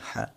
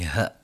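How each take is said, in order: First: The h is a light, ordinary breath. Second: The h is rough and deep from the chest. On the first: The speaker calls it wrong. "Jangan sampai" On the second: The speaker calls it right. "ha dari dalam dada"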